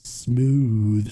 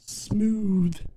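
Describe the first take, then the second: First: The word is said in a lower voice. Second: The word is said in a higher voice. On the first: "I want to go lower, right?" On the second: "No, that didn't sound good"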